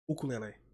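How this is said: It is said with a Portuguese pronunciation. "So in Portuguese, I think I don't even know how to say it really, but it will be like"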